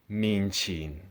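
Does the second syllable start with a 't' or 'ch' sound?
ch. The second syllable starts with a 'ch' sound. This is the Cantonese form. "Cantonese people would say min chin"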